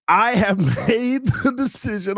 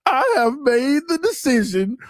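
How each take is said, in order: First: Laughing while reading. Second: Said in the usual way. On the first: Real, not acted. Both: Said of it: "I'm finna cry".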